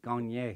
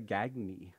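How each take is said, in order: First: The name is said in a French way. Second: The name is said in an American way. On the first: This is how the name's owner says it. The speaker calls it right. "It sounds so much better too" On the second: This is how people in the United States say it. The speaker calls it wrong. "in the United States ... we would say Gagney"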